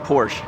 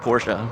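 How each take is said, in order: First: The word is said in a shortened form. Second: The word is said in full, not shortened. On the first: This is the common American way to say it. "here in the U S we tend to truncate everything" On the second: This is the proper way to say the name. "I believe that is the proper pronunciation of the vehicle"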